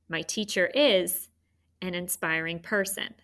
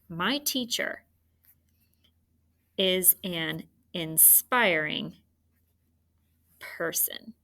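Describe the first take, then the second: First: The sentence is broken into two phrase groups. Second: The sentence is broken into three phrase groups. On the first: "There's another good way to do two" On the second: "I think I'm doing three"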